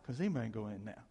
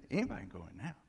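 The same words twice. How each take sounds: First: Said in the usual way. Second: Rushed, rising "anybody can go in now"; double-time replay of "anybody can go in now"; quick rising repeat. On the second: Shown as a demonstration. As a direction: fire "anybody" off fast and lift the end. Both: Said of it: "See, anybody can go in now".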